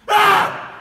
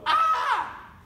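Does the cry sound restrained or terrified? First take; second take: terrified; restrained. First: A loud, genuinely terrified scream. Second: A mild, imitated cry without real fear.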